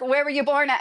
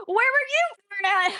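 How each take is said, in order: First: Said in the usual way. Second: Very high mock comeback, YOU thrown back; mimicked retort. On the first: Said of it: "and he's like". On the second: Man with an accent turns the question back, mimicked retort. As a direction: imitate him turning the question round, pitched way up. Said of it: "the guy that had an accent".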